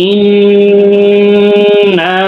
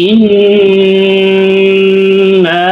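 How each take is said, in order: The two takes are said the same way.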